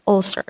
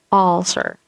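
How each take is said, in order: First: "ulcer" with a short middle vowel in the first syllable; correct pronunciation. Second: "ulcer" starting with an open aw, awl-ser; wrong pronunciation. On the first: Teacher gives the right version, short-vowelled "ulcer". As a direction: say "ulcer" briefly, relaxed mid vowel first. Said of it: "It's ulcer". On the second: Teacher shows another wrong version, "ulcer" as awl-ser. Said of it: "you don't also say ulcer". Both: Shown as a demonstration.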